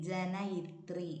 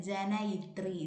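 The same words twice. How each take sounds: The two takes are said the same way.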